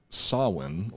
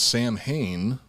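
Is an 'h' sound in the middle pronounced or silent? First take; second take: silent; pronounced. First: It is said like 'Sow-in', with no 'h'. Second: It is said like 'Sam Hain', with an 'h'. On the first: The speaker calls it right. "it's actually pronounced Sawin" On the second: The speaker calls it wrong. "spelled like it should be pronounced Sam Hain"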